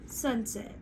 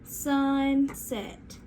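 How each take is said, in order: First: Said in the usual way. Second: "Sunset" drawn out as SUN... SET; slow, segmented "Sunset" for the class; stretched into syllables. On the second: Shown as a demonstration. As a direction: stretch "Sunset" into two separate parts. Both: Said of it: "say sunset with me".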